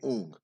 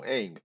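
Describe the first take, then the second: First: The name is said with an 'uh'-like vowel. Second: The name is said with an 'a' as in 'bang'. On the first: The speaker calls it wrong. "they even pronounce incorrectly. They say Ung" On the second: The speaker calls it right. "We know Aang"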